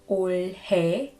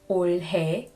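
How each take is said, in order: Both takes have the same delivery.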